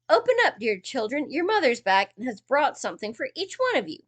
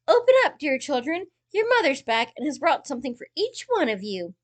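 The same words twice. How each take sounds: First: It is said in a gruff wolf voice. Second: It is said in a soft wolf voice.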